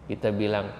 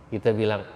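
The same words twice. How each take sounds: Both takes have the same delivery.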